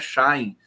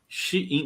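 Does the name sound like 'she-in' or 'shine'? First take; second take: shine; she-in. First: The name is said as one syllable, 'shine'. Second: The name is said as two syllables, 'she-in'. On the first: The speaker calls it wrong. "a pronúncia da empresa de vendas chinesa não é Shine" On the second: The speaker calls it right. "é Shein"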